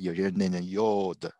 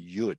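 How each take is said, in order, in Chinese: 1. 这个元音发'o'音。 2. 这个元音发'u'音。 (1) "有些人念成yod，不是的" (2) "这是yud"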